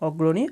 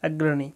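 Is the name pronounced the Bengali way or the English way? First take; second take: Bengali; English. First: The name is pronounced the Bengali way. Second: The name is pronounced the English way. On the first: "বাংলায় উচ্চারণ করলে হবে" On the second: "English থেকে উচ্চারণ করলে হচ্ছে"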